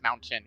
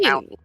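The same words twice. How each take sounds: First: The middle T is fully pronounced. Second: The middle T is a glottal stop. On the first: "instead of" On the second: "We use a glottal stop for a lot of our T's"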